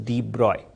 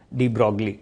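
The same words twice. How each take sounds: First: De Broglie as "dee broy", g and l silent; correct pronunciation. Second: De Broglie misread as "dee brog-lee"; mispronunciation. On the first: Teacher correcting students, de Broglie pronounced "dee broy". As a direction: make de Broglie rhyme with "boy" at the end. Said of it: "the pronunciation is de Broglie". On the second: Teacher showing students the wrong reading, de Broglie as "dee brog-lee". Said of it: "pronunciation सही नहीं है". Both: Shown as a demonstration.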